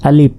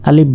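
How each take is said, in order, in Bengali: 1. শব্দটি p-এর মতো ধ্বনি দিয়ে শেষ হয়। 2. শব্দটি p-এর মতো ধ্বনি দিয়ে শেষ হয়।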